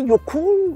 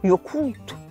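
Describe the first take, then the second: First: The word ends with an l sound. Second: The word ends with a t sound. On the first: "Puis les deux L" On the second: "C'est comme s'il y avait des T au lieu des L"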